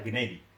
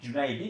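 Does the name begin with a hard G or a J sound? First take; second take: hard G; J. First: The name begins with a hard G sound. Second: The name begins with a J sound. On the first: "punyanya G ... yang ada Genaidi" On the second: "mereka nggak punya J"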